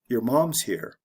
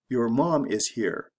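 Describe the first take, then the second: First: Said quickly with words reduced and run together. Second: Said slowly with each word separate and full.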